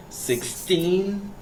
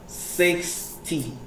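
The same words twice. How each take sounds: First: Put-on "sixteen" pitched high with a long TEEN; stress on TEEN. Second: "sixty" pitched high on SIX, falling softly on ty; stress on SIX. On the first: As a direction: hold out the last syllable of "sixteen". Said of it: "the teen sound is, like, stressed out". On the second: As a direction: split "sixty" and lean on the first syllable. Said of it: "you need to stress out on". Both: Shown as a demonstration.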